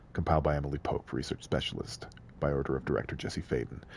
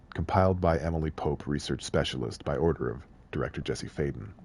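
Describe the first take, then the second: Both takes have the same delivery.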